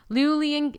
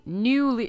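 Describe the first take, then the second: First: Newly said as luling, with an l at the start; mispronounced newly. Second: Said in the usual way. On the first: Real, not acted. Gamer reading the event card trips on Newly, saying luling. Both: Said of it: "did I say luling?".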